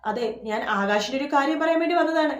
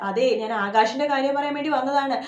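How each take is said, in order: First: Raised voice so she can overhear; deliberately loud announcement; said loudly. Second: Louder, raised voice for the listener inside; pointedly loud repeat; said loudly again. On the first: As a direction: say it loud enough for someone inside. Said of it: "എന്ന് ഉച്ചത്തിൽ പറയാണ്". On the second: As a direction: call it out so it carries. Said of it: "വീണ്ടും ഉച്ചത്തിൽ പറയണ്ട്". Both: A narrator's reading.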